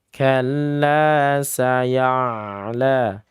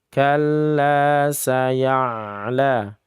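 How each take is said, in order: No difference in how they are said.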